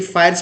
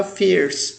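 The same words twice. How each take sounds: First: फायर्स said wrongly, with the vowel of fire; common mispronunciation. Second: फियर्स said correctly, with the vowel of fear; correct pronunciation. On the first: Teacher showing students the wrong reading of fierce. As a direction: say फायर्स like fire, the mistake learners make. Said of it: "अक्सर लोग mistakenly फायर्स पे पढ़ लेते हैं". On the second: Teacher giving students the right फियर्स after the wrong one. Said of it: "mistakenly फायर्स पे पढ़ लेते हैं". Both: Shown as a demonstration.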